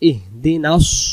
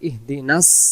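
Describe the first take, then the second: First: The final 's' is made with rounded lips. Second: The final 's' is a plain, thin hiss. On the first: The speaker calls it right. "মুখটা গোল চলে আসবে" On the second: The speaker calls it wrong. "তখন সিন হয়ে যাবে"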